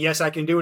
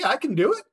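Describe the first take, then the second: First: The voice falls at the end like a statement. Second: The voice rises at the end like a question. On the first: The speaker is confident they can do it. The speaker calls it right. "instead of saying" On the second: The speaker is less confident than they claim. The speaker calls it wrong. "They have that spike at the end and that question mark"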